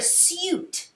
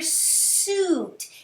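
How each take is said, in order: First: The vowel has a 'you' sound, like syoot. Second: The vowel has a plain 'ooh' sound. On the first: The speaker calls it wrong. "We don't really hear you, right? We don't hear suit" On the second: The speaker calls it right. "We hear suit. So it has that ooh sound"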